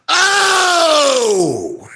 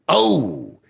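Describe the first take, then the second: First: It is said extra loudly. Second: It is said at medium loudness.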